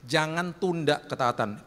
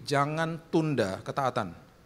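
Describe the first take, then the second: First: Slow, stress on "tunda"; repeated stressed warning. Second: Slow, every word weighted; slow stressed warning. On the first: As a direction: lean on "tunda" to drive it home. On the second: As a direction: hammer home the command slowly. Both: Shown as a demonstration.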